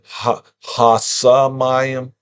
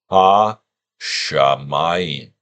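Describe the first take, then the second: First: The word begins with an s sound. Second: The word begins with an sh sound. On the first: "Sa versus Sha. It's close enough"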